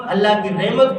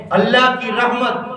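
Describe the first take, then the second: First: "رحمت" flattened to "rehmat"; wrong-example "rehmat" for "رحمت"; mispronunciation. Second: "رحمت" with open "rah" and clear h; full Arabic h in "رحمت"; correct pronunciation. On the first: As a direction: say "reh-mat" for "رحمت", h weakened. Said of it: "کوئی چیز نہیں ہوتی ہے". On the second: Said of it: "رحمت ہوتی ہے". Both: Shown as a demonstration.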